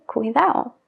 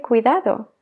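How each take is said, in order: First: "cuidado" said as cuidao, the last d gone; dropped d in cuidado. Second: "cuidado" with both d sounds said; full d in cuidado. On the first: Teacher shows the casual Spanish cuidao. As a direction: swallow the d in "cuidado". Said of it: "se suele omitir la D". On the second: Teacher shows the careful version of the word. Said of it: "Puedo decir cuidado". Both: Shown as a demonstration.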